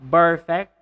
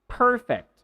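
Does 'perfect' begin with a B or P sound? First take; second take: B; P. First: It begins with a voiced b sound. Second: It begins with an unvoiced p sound. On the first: The speaker calls it wrong. "do not say perfect" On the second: The speaker calls it right. "it should be p, p, perfect"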